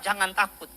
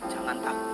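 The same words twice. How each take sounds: First: The phrase is said loudly and strongly. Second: The phrase is said quietly and softly. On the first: The spirit is well fed and speaks clearly. "dia kenceng ngomong" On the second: The spirit is neglected and its voice is fading. "dia mulai ngomong lebih pelan"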